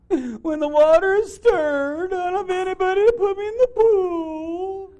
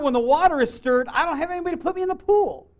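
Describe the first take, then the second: First: It is said in a whiny, complaining voice. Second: It is read in a plain, neutral voice.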